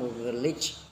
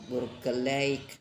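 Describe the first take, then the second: First: The last syllable ends in an 'ich' sound. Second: The last syllable ends in an 'eik' sound. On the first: The speaker calls it wrong. "bukan burgerlich" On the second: The speaker calls it right. "kalau E J K Eik, jadi burgerlijk"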